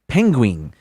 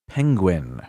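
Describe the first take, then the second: First: The word ends with a 'wing' sound. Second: The word ends with a plain 'win' sound. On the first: The speaker calls it wrong. "he mispronounced it, and he would say penguin, like the word ended with W I N G" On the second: The speaker calls it right. "but this time say it penguin"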